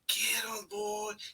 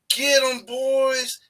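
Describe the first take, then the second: First: It is said quietly. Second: It is said loudly.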